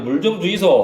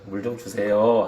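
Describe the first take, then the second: First: It is said in a Gyeongsang regional accent. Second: It is said in a Seoul standard accent. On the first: The speaker is from Gyeongsang. "경상도 말이겠죠" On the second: The speaker is from Seoul. "서울 사람이고"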